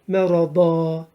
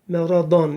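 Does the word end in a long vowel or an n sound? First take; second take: long vowel; n sound. First: The word ends with a lengthened vowel. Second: The word ends with an n sound. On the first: The reciter stops and takes a breath here. "Bir elif çekerek duruyoruz" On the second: The reciter continues without stopping. "İki üstün"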